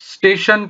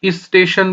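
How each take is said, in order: First: It starts directly with the st cluster. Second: An extra i vowel comes before the word. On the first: The speaker calls it right. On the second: The speaker calls it wrong.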